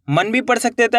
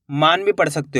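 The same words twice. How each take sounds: First: मन with a short a, like 'mun'; short vowel. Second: मान with a long open aa; long vowel. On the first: (मन में छोटा अ) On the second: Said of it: "मान भी पढ़ सकते हो". (मान में लंबा आ) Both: Shown as a demonstration.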